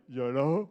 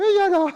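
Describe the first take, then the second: First: Low, soft chest voice; low register. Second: High, loud head voice; high register. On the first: Teacher contrasting the voice's floors, low register. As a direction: place it down at the bottom floor. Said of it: "Donc, vous voyez, il y a là". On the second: Teacher contrasting the voice's floors, high head voice. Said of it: "très aiguë". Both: Shown as a demonstration.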